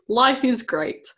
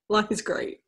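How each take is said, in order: First: It is said in a sarcastic, mocking tone. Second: It is said in a sincere, genuine tone. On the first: Life is actually not going well. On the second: Life really is going well.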